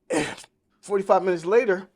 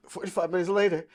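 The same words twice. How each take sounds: First: Louder, weighty build-up before the blow; emphatic pause line. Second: A weary, pained repeat; heavy sigh. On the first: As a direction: land it hard to set up the bad news. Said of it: "repeats it after a sigh". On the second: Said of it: "sighs and repeats". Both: Real, not acted.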